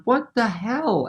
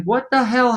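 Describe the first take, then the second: First: Softer, slow stunned "What the hell?"; dazed backstage, barely believing; muttered disbelief. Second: Higher, stunned exclamation; baffled musician walking off stage; bewildered outburst. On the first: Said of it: "I'm backstage going". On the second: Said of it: "walking off with my guitar going". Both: Retold or imitated.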